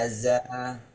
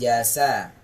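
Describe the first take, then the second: First: The middle consonant is a buzzing z sound. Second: The middle consonant is a breathy s sound. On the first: The speaker calls it right. "tidak mengeluarkan nafas... ditahan nafasnya" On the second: The speaker calls it wrong. "bukan jasa"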